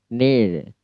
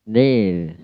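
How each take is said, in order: Both takes have the same delivery.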